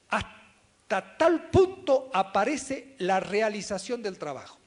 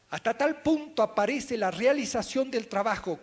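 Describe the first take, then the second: First: Loud, very slow, spaced-out words; slow reading. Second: Loud, higher quote reading at normal pace; lectura enfática. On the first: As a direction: read it slowly and forcefully, phrase by phrase. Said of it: "Lo voy a leer despacito". (lectura despacito, fuerte y pausada) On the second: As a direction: read the quote out strongly, without slowing. Lee la cita a ritmo corrido. (lectura enfática en voz alta, a ritmo normal) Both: Shown as a demonstration.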